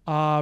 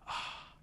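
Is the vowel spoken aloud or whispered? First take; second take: aloud; whispered. First: The vowel is spoken in a normal voice. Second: The vowel is whispered without any voicing.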